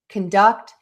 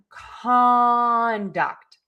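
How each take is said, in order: First: The stress is on the second syllable. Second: The stress is on the first syllable. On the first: It means to direct or manage something. "we are going to stress syllable number two" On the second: It means behavior or actions. "we are going to stress syllable number one"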